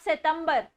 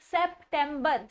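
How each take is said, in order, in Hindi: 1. शब्द में 'p' की कोई आवाज़ सुनाई नहीं देती। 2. शब्द में 'p' की साफ़ आवाज़ सुनाई देती है। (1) "सितंबर में प की आवाज ही नहीं आ रही है" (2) "इट्स सेप्टेम्बर"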